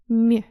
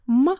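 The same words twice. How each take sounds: First: The consonant is said soft. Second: The consonant is said hard.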